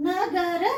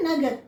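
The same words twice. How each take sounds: First: "నగర" in full syllables, final a sounded; "నగర" with the last ర fully voiced; full final vowel. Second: "నగర్" joined up, ending on a bare r; "నగర్" as one word, no last vowel; half final letter. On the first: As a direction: sound every letter of "నగర". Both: Shown as a demonstration. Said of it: "చివరి అక్షరాల్ని హాఫే పలుకుతున్నాం".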